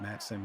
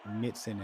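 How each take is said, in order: First: The first vowel sounds like the 'a' in 'at'. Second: The first vowel sounds like the 'i' in 'it'. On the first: The speaker calls it right. "and not Matson" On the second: The speaker calls it wrong. "for mispronouncing the name, calling you Mitson"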